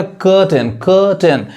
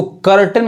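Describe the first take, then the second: First: कर्टेन without r, "kuh-ten"; British-style कर्टेन with a schwa for "ur"; silent r. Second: कर्टेन with the r sounded, "kar-ten"; American pronunciation. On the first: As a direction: drop the r in कर्टेन. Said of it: "यानी आर नहीं पढ़ाएगा". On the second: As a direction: roll in the r of कर्टेन. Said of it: "वो American हो जाएगा". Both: Shown as a demonstration.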